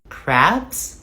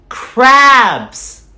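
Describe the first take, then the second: First: The word is said quietly. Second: The word is said loudly.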